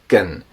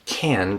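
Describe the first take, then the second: First: The word has a very reduced, weak vowel. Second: The word has a full, clear vowel.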